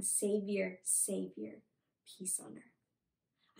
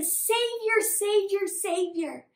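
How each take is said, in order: First: Low and soft, fading to a slow near-whisper; hushed recital. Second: Higher, louder repeated chant-like cheer; acted acclaim, easing on the last; crowd yelling. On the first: Retold or imitated. Teacher translates the crowd's words for children, hushed and fading. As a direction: let each phrase sink away reverently. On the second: Teacher acts crowd hailing their Savior, excited yelling. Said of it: "They were yelling at Jesus".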